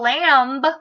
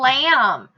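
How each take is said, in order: First: The final b is pronounced after the m. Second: The word ends on a plain m sound. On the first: The speaker calls it wrong. "She didn't have a little lamb" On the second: The speaker calls it right. "it makes the mm sound"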